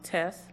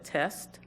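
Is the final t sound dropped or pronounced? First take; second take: dropped; pronounced. First: The final t sound is dropped. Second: The final t sound is pronounced. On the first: "the final consonant dele deletion, where it's pronounced test" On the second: "instead of test"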